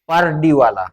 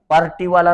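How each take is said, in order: First: The middle consonant is a D sound. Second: The middle consonant is a T sound. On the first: The speaker calls it right. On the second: The speaker calls it wrong. "पार्टीवाला नाही"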